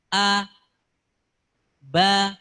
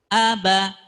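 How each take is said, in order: First: The syllables are said separately with a break. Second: The syllables are joined smoothly without a break. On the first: The speaker calls it wrong. "Tidak boleh membacanya" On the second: The speaker calls it right. "dalam satu kesatuan"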